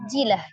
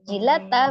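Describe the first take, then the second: First: The word ends with an h sound. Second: The word ends with a t sound and vowel. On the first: The reader stops on this word. "tak marbutoh ketika sukun menjadi bunyi huruf ha" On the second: The reading continues without stopping. "tak marbutoh ketika diwakafkan"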